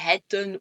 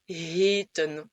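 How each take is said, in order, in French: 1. La première voyelle est brève. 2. La première voyelle est longue. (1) "tu ne vas pas dire hetten" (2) "ça va être un son long"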